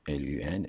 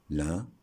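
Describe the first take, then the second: First: L U N spelled out as separate letters, L, U, N. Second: Said in the usual way. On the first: Shown as a demonstration. Teacher spells L U N for students, letter by letter. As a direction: spell L U N one letter at a time.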